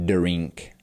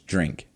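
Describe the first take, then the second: First: It begins with a clear D sound. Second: It begins with a J-like sound. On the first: The speaker calls it wrong. "you definitely don't say drink" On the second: The speaker calls it right. "It's drink"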